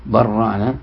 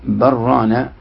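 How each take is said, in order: First: برانا said with a doubled, held r, barrānā; merged reading. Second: برانا said with a single light r, no merging; one reading. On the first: Teacher contrasting readings to students, doubled merged r. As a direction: lean on the r in برانا and hold it long. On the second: Teacher contrasting readings to students, plain unmerged r. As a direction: read برانا as bi-rānā, the r kept short. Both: Shown as a demonstration. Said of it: "على قراءة".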